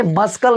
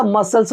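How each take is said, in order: First: "मस्कल" with an audible k; wrong reading, hard c. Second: "मसल्स" with no k sound; correct reading, silent c. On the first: Teacher rejecting the mistake, "मस्कल" misread with k. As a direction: say "मस्कल" as mus-kal. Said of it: "भाई मस्कल नहीं होता". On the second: Teacher giving the correction, "मसल्स" with the c silent. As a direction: say "मसल्स" as mus-uls. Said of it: "मसल्स होता है". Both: Shown as a demonstration.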